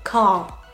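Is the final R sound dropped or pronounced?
dropped. The final R is dropped, leaving a long vowel. "vous n'allez pas forcément prononcer le R, ça va être juste une, un long son"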